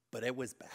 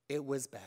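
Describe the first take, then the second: First: Whisper. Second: Said in the usual way. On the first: Acted. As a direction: let "but it was bad" drop to a breathy whisper, like a confession. Grim confession about old church.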